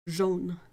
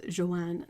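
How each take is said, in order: First: Jaune said zhohn, nasal, without the hard j; French jaune. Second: Joanne said the English way, jo-ANN with a hard j; anglicized Joanne. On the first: Teaching a friend the French color word, jaune in French. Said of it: "together as a sound in French is like an O". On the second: Owning her usual English habit to a friend, Joanne anglicized. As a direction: Joanne in two syllables with a stressed ann. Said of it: "I usually pronounce it as Joanne". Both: Shown as a demonstration.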